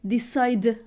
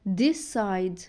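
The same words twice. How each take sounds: First: The second d sound is strong and heavy. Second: The second d sound is soft and light. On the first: The speaker calls it wrong. "ما بقولش decide" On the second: The speaker calls it right. "لا decide"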